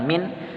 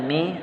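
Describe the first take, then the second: First: "min" with a distinct closed n; "min" with no nasal blurring; wrong clear nun. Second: "mi" with the n hidden; "mi" without a closed final n; ikhfa reading. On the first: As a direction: finish "min" firmly on the n. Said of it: "bukan min". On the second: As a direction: leave "mi" open into a nasal hum. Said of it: "juga bacanya mi". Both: Shown as a demonstration.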